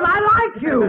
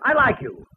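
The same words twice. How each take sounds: First: Much higher, bellowed I; the father shouting that he likes Mel; yelled fondness. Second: Said in the usual way. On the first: Acted. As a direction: bark the I like you at him. Father yells his fondness.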